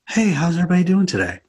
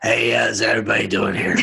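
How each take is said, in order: First: The voice sounds smooth and polished. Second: The voice sounds rough and unpolished.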